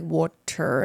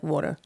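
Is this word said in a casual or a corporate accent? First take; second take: corporate; casual. First: It is said in a careful, standardized accent. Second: It is said in a relaxed, natural home accent. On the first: The speaker is switching speech around certain people. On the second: This is how the speaker naturally talks.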